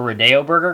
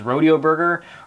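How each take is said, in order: First: Rodeo sounds like the street name Rodeo Drive. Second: Rodeo sounds like the ordinary word for the cowboy event.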